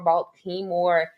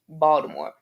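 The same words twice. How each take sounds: First: The t is said clearly, just as it is spelled. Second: The t sounds like a d, with an added vowel. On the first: The speaker calls it wrong. "Everybody else kept saying" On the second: The speaker calls it right. "Pretend there's a D and another A in there"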